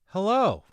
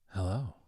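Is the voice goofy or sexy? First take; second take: goofy; sexy. First: It is said in a goofy, nice voice. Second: It is said in a sexy, sultry voice.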